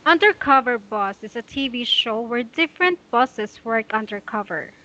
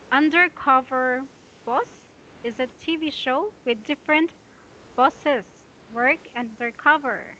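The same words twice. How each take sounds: First: Undercover boss read in one flowing phrase; smooth fluent read. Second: Choppy pausing read. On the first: Teacher modelling fluent reading without pauses for student. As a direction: read straight through without stopping. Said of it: "Just like this". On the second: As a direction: read it broken up with pauses. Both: Shown as a demonstration.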